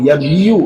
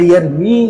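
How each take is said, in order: First: The word ends with an extra 'yu' sound. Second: The word ends with a short 'mi' sound. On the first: The speaker calls it wrong. "উচ্চারণ কঠিন হয়ে যায় না?" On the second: The speaker calls it right. "বললে সহজ হয়ে যায় না?"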